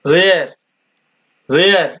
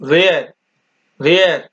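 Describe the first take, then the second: Both takes have the same delivery.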